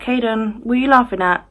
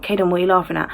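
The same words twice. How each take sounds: First: Put-on higher, light question to a child. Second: A bit serious. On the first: Mum talking to her laughing son, higher light question. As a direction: ask a toddler lightly, pitched up. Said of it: "I'm talking, I'm like". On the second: Retold or imitated. Mum getting serious with her laughing son, level question. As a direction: ask the child in a mildly serious tone. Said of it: "starting to get a little bit serious now".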